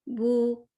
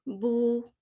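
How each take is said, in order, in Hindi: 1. यह स्वर एक गोल होंठों वाली 'oo' ध्वनि है। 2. यह स्वर एक गोल होंठों वाली 'oo' ध्वनि है।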